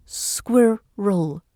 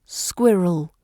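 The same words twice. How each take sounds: First: "squirrel" slowly split into two syllables, SQUIR-rel. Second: Said in the usual way. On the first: Shown as a demonstration. Teacher showing learners the tricky word, "squirrel" slowly broken in two. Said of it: "it's pronounced". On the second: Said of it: "In British received pronunciation".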